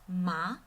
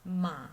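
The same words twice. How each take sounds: First: The pitch rises from middle to high. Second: The pitch dips low, then rises. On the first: "goes out from middle pitch to high pitch" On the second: "it falls from middle to low first, and then it rises from low to high"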